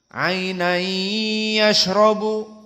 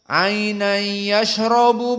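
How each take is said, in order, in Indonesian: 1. Bunyi gabungan itu berdengung dan ditahan dua ketukan. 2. Bunyi gabungan itu biasa dan tidak ditahan lama. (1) "Ada dua harokat. Dan makhrajnya dari hidung" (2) "tidak ada gunnah, maka tidak ada dua harokat"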